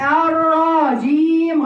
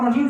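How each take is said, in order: First: The vowel after the r is stretched long. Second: The vowel after the r is kept short. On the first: The speaker calls it wrong. "تولد ألف من فتحة الراء فيقرأها الراجيم ... غلط" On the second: The speaker calls it right. "يلا اسمع الرجيم صح؟"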